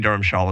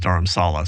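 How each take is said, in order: First: The middle consonant is an sh sound. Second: The middle consonant is a plain s sound. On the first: "that's the Indian pronunciation" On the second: "the Tibetan pronunciation is Dharamsala"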